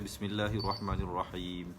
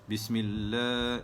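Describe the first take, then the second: First: The vowel in 'lah' is held short. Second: The vowel in 'lah' is held long. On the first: The speaker calls it wrong. "Itu salah" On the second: The speaker calls it right. "la itu mestilah dipanjangkan dua harakat"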